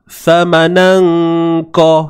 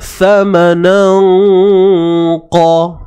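First: The nasal hum before qa is thin and weak. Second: The nasal hum before qa is thick and heavy. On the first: The speaker calls it wrong. "Kalau kita buat bunyi yang lemah" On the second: The speaker calls it right. "Pergi terus bunyi yang tebal tu, dengung yang tebal tu"

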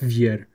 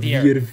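First: The name ends without a v sound. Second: The name ends with a v sound. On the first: The speaker calls it right. "it's just Vier" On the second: The speaker calls it wrong. "not Vier"

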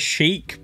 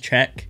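First: The word sounds like 'sheek' with a long vowel. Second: The word sounds like 'check' with a short vowel. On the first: The speaker calls it wrong. "I did originally pronounce it as Chic" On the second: The speaker calls it right. "apparently you pronounce it as Cheque"

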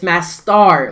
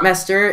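First: The last syllable is a full 'star'. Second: The last syllable is a weak, reduced 'ter'. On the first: The speaker calls it right. "it's Mastar, like a star" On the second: The speaker calls it wrong. "It's not Master"

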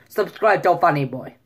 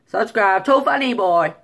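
First: It is said in a Russian accent. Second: It is said in a Chinese accent. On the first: "Russian. ... That's better"

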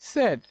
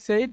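First: The vowel is a short 'e' like 'bed'. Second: The vowel glides like 'ay' in 'say'. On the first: "appropriate উচ্চারণ হচ্ছে সেড" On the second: "এটাকে আমরা বলে থাকি সেইড"

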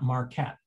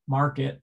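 First: The second syllable has a full, clear vowel. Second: The second syllable has a reduced, weak vowel. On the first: The speaker calls it wrong. "and not Marquette" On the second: The speaker calls it right. "there's a vowel reduction in the non-stressed syllable"

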